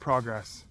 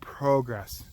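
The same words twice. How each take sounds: First: The first syllable sounds like 'prog', short o. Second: The first syllable sounds like 'pro', long o. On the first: It means something not working in your favor. The speaker calls it wrong. "not progress" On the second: It means something positive and moving ahead. The speaker calls it right. "I'm saying progress"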